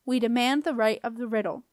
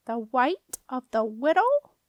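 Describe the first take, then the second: First: Said in the usual way. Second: Slow, rising question in disbelief; stunned doorkeeper, r's turning to w's; incredulous echo. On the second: A narrator's reading. Doorkeeper echoing the girl's demand, incredulous.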